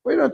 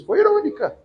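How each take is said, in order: First: "Foi irônica" again, high and light; lightly ironic. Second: Plain. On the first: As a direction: toss it off with a hint of irony. ("Foi irônica" repetido com leve ironia) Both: Shown as a demonstration. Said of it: "A Marta foi o quê com Jesus?".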